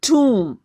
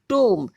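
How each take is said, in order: First: The vowel sounds like 'oo'. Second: The vowel sounds like 'oh'. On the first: The speaker calls it right. "It is टूम" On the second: The speaker calls it wrong. "This is not टोम"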